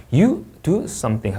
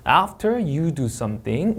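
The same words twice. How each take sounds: First: Finished sentence, SOMETHING falling; falling intonation. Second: Slow, with SOMETHING lifted at the end; unfinished clause, SOMETHING going up; rising intonation. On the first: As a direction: close the sentence by bringing SOMETHING down. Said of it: "문장 끝나면 내려 읽습니다". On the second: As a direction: read it slowly and leave SOMETHING hanging upward. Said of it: "올려 읽고요". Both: Shown as a demonstration.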